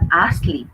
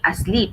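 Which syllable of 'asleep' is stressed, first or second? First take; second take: first; second. First: The stress is on the first syllable. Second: The stress is on the second syllable. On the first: The speaker calls it wrong. "you are putting the stress on the first syllable for asleep" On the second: The speaker calls it right. "it should be asleep"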